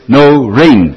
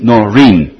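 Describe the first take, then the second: First: The second syllable sounds like 'rain'. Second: The second syllable sounds like 'reen'. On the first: The speaker calls it right. "het is no rain en niet Noreen" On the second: The speaker calls it wrong. "en niet Noreen"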